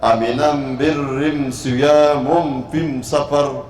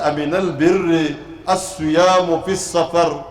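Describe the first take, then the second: First: The article is pronounced with an m sound. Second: The article is pronounced with an l sound. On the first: This is how the questioner's dialect says it. "वो लाम की बजाय मीम पढ़ता था" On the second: This is the ordinary way of saying it. "ये जो हम कहते हैं"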